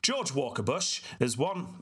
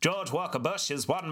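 First: It is read in his normal speaking voice. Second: It is read in an old-timey announcer voice. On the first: The speaker calls it wrong. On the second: The speaker calls it right.

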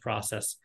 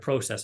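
First: The word is said the American way. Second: The word is said the Canadian way.

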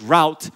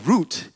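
First: It is said in a non-British pronunciation. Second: It is said in a British pronunciation.

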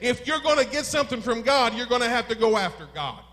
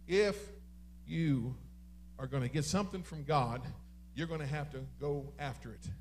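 First: It is shouted loudly and forcefully. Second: It is said calmly, without shouting.

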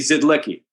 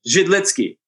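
First: The name is said with American English sounds. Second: The name is said with Czech sounds. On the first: "if you look at in Americanized, it would be Zidlicky" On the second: "if you're really being strict in the Czech, it was Zidlicky"

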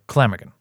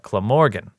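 First: It is run together quickly, British-style. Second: It is said slowly, syllable by syllable, American-style.

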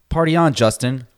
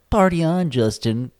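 First: It is said in his normal voice. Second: It is said in a cartoonish Simpsons-like voice.

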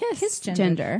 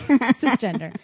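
First: The word begins with a hard K sound. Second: The word begins with a soft S sound. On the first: This follows the original Latin pronunciation. The speaker calls it wrong. "the proper Latin pronunciation is kiss. You like pronounce the hard C" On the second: This is the usual English pronunciation. The speaker calls it right. "in English, I was going to say in American, we say cisgender"

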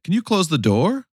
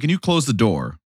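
First: The voice rises at the end. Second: The voice falls at the end. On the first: "she ends the sentence on an up tone" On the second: "Instead of"

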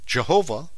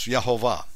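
First: The name begins with a J sound. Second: The name begins with a Y sound. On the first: This is the English form of the name. "how you pronounce it in English with a J" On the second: This is the Hebrew form of the name. "the Hebrew is Yehovah, spelled with a Y"

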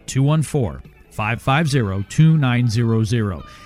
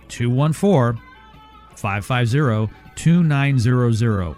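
First: The number is said at normal speed. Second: The number is said more slowly.

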